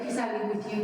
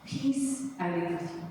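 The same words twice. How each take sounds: First: Quick, tossed-off version of the quote; casual, offhand. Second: Said in the usual way. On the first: Retold or imitated. Showing how the Lord didn't say it, casual and quick. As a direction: run through it lightly, no weight. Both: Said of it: "He didn't say, like".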